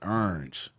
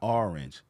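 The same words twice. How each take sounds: First: The word begins with an 'er' sound like 'earn'. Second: The word does not begin like 'earn'. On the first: The speaker calls it right. "It's almost like you starting to say the word earn" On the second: The speaker calls it wrong. "It's not orange"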